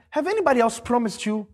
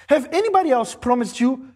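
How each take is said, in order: Both takes have the same delivery.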